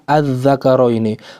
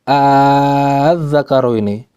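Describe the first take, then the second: First: The opening is a clear glottal stop. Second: The opening is a long drawn-out vowel. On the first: "Kalau saya baca hamzah" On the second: "Kalau saya membaca dengan uh, apa namanya? Alif"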